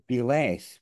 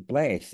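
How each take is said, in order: First: It is said as two separate syllables. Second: It is said as one single syllable. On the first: The speaker calls it wrong. "don't say be less" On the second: The speaker calls it right. "we say bless"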